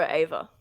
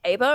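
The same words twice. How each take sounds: First: "Ava" said with a clear V sound. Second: "Ava" said with a B sound in place of the V. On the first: Player checks the name, "Ava" pronounced with a V. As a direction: say "Ava" as AY-vuh. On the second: Player checks the name, "Ava" pronounced with a B. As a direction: say "Ava" as AY-buh. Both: Shown as a demonstration. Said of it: "with a V".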